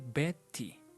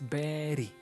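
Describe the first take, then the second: First: The middle consonant is a clear T sound. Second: The middle consonant sounds like a soft D. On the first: The speaker calls it wrong. "We don't say Betty" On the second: The speaker calls it right. "It sounds like a letter D"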